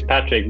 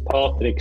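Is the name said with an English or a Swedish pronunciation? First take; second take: English; Swedish. First: The name is said with an English pronunciation. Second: The name is said with a Swedish pronunciation. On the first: "English is Patrick" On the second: "but now here is Patrick Stahl"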